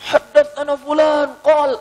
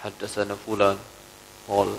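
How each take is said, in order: First: High, loud, slow and drawn-out chant of the hadith chain; imitating the scholar reciting with renewed vigour; spirited recital. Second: Lower, softer, limp reading of the hadith chain; imitating the scholar's tired, half-hearted delivery; listless recital. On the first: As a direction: declaim it with sudden fire, stretching each word. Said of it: "tiba-tiba dia semangat lagi". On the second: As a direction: mumble it as if drained of energy.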